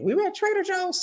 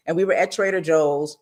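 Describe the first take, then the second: First: Sudden high-pitched start; the place name pops up high and soft; high squeak. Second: Said in the usual way. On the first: Real, not acted. False start, then restarted calmly.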